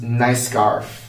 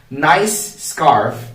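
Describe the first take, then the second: First: The two words are linked together. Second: The two words are said separately.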